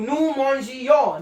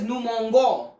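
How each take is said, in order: First: The g is a soft zh sound. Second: The g is a hard g sound. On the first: The speaker calls it right. "I have added an extra letter, that is E... everything sounds so good" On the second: The speaker calls it wrong. "If I don't place this E over here, it will be pronounced as"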